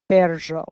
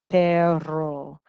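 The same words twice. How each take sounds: First: The double R is blended with a harsh j. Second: The double R is a plain trill. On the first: "the Ecuador route, you can kind of do this R, j sound together" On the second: "the double R is the rolled R's"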